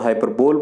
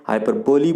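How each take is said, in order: First: It ends with a full 'bowl' sound. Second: It ends with a full 'bo-lee' sound. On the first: "बहुत सारे लोग इसको हाइपरबोल बोलते हैं" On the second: "हाइपरबोली बोलते हैं"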